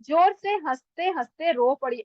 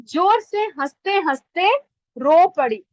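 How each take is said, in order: First: Said in the usual way. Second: जोर से हंसते हंसते rising and loud, then रो पड़ी punched louder; stress on the key words. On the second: Shown as a demonstration. Teacher showing students the dark words with stress. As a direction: lean on जोर and land hard on रो. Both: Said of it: "dark शब्द कौन से हैं".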